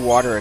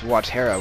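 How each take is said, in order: First: The name begins like the English word water. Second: The name does not begin like water. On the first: The speaker's own way of saying it. "I always say Watera because it's water" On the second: Someone else's way of saying it. "H C Bailey says Watera, which is so weird"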